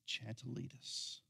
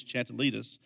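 First: Put-on child's voice. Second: Put-on five-year-old voice. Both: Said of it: "in a five-year-old voice".

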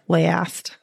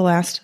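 First: "Last" drawn out as "leh-ast", a broad Wisconsin vowel; Wisconsin accent. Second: "last" with a flat Wisconsin a, slipped out naturally; Wisconsin accent. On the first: Shown as a demonstration. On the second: Real, not acted. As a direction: Midwest Wisconsin vowel in "last". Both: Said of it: "I sounded very Wisconsin there".

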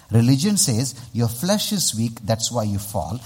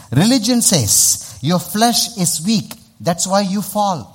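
First: Said in the usual way. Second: High, loud, slow proclamation; emphatic repeat. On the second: Real, not acted. Preacher repeats it so the crowd listens, high and emphatic. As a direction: drive each phrase home, pitched up and drawn out. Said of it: "Let me say this again".

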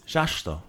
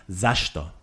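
First: Zashto with a hushing first sound, "zhashto"; zh overdone. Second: Zashto with a clean buzzing z at the start; corrected z sound. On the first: Teacher overdoing the first consonant, zashto begun with zh. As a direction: start zashto with a heavy zh instead of z. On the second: Teacher correcting himself, zashto begun with a plain z. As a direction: begin zashto on z, keep sh in the middle. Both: Shown as a demonstration. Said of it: "maybe I put the zh too much".

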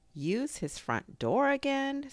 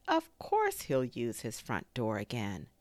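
First: High, slow astonished question; incredulous echo. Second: Low, settled assurance after the question; reassuring. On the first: Christopher Robin hearing Pooh's fear, incredulous question. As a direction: repeat it in disbelief, pitched way up. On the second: Christopher Robin settling Pooh's worry, reassuring. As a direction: dismiss the worry, firmly and calmly. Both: A narrator's reading.

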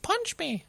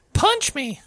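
First: Very high, softer mock-kid voice; game kid's voice. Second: High-pitched imitation of a creepy kid; game kid's voice. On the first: Player retells the kids' ambient chatter, high soft kid voice. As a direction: imitate a kid talking to themselves, high and small. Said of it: "I'd hear one of them just say". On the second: Player imitates kids overheard in the game, high creepy kid voice. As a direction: mimic an eerie little kid in a high voice. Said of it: "I swear I heard them say".

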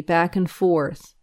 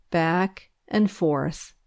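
First: Said in the usual way. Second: "back and forth" drawn out slowly, with a gap after "back"; slow "back and forth" to the sway of a swing; slow, swinging rhythm. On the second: A narrator's reading. Echoes the slow swing pushing.

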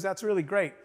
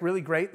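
First: Offhand, matter-of-fact "really great"; understated reaction. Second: Questioning "really great", rising at the end; mildly disbelieving retort, imitating a coworker; incredulous echo. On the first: Retold or imitated. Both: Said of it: "That's all you have to say?".

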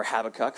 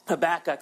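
First: "Habakkuk" said HAB-uh-kuk; "Habakkuk" with first-syllable stress; alternative Habakkuk pronunciation. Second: "Habakkuk" said huh-BAK-uk; "Habakkuk" with second-syllable stress; Habakkuk pronunciation. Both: Shown as a demonstration. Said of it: "Or Habakkuk, for those of, uh".

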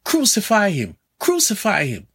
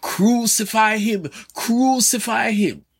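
First: High-pitched retold crowd cry, falling on each crucify; crowd shouting. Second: Slow, high, emphatic mob cry, each word pressed out; emphatic crowd shout. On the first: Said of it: "the crowds shouting". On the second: Retold or imitated. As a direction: drag out crucify like a demanding crowd. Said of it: "shouted emphatically".

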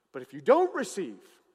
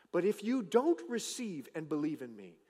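First: Louder preaching repeat. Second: Said in the usual way. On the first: Acted. Repeated phrase, louder take.

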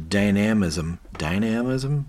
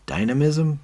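First: "dynamism" said with stressed AM, die-NAM-ism; unsure pronunciation. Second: "Dynamism" said DIE-nuh-mism, questioning; unsure pronunciation. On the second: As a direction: test "Dynamism" with stress on DIE, voice raised. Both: Shown as a demonstration. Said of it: "That's a weird word".

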